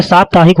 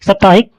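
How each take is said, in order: First: साप्ताहिक said as "saaptaahik"; long-a साप्ताहिक. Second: साप्ताहिक said as "saptaahik"; short-a साप्ताहिक. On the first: Teacher correcting, long first vowel in साप्ताहिक. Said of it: "साप्ताहिक होता है". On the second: Teacher showing the error, short a in साप्ताहिक. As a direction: shorten the first vowel of साप्ताहिक. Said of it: "गलत है". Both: Shown as a demonstration.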